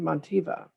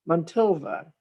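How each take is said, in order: First: The name is said without an L sound. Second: The name is said with an L sound. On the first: "but it may be Montiva. I don't know how the L is" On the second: "I have Mon- Montilva"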